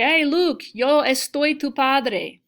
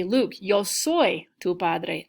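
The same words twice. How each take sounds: First: Louder, slower movie-villain line with estar; hammed-up Vader saying it the wrong way; mock Darth Vader, wrong verb. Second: Slow Vader line, a touch of menace; lightly voiced movie villain, said right; mock Darth Vader, correct verb. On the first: Teacher playing Vader to show the wrong verb, louder and slower. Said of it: "I'm not talking about a feeling". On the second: Teacher playing Vader with the right verb, slowly and lightly. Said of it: "So I would wanna say". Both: Shown as a demonstration.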